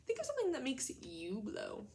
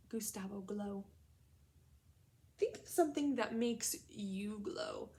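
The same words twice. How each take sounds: First: Said in the usual way. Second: Slow whispered prompt; hushed classroom whisper. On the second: Real, not acted. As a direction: whisper it to draw them in. Teacher prompts class to think.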